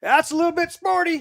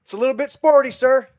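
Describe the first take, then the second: First: Higher, louder deadpan quip under fire; a hint of a cool officer's one-liner; calm soldier quip. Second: Higher, louder quoted deadpan line; a hammed-up officer's one-liner; calm soldier quip. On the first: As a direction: toss it off cool while bullets fly. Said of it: "And he goes". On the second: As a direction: savour the cool understatement. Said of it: "that scene where he goes".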